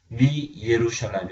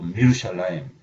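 First: Mi and the full word with 'ye' are separate. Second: Mi joins the word and the 'ye' is dropped. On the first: The speaker calls it wrong. "미 예루샬라임 이렇게 발음하지 않고" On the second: The speaker calls it right. "미루샬라임 이렇게"

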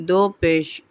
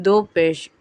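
The two takes are said the same way.

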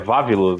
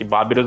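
First: The name begins with a V sound. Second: The name begins with a B sound. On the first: This is the correct name. The speaker calls it right. "O nome certo não é Babirus" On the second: This is the Japanese pronunciation. The speaker calls it wrong. "Babirus é a pronúncia japonesa"

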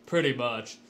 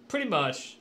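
First: It is said in a deeper voice. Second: It is said in a normal voice.

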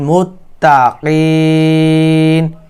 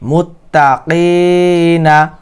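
First: The word ends on 'n' with no vowel. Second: The word ends with a short 'a' vowel. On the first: The reading stops at this word. "ওয়াকফ করলে" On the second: The reading continues without a stop. "নুন জবর না"

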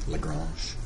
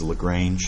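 First: The name is said with a French pronunciation. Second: The name is said with an anglicized pronunciation. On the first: The speaker calls it right. "French mathematician" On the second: The speaker calls it wrong. "A lot of people mispronounce this as"

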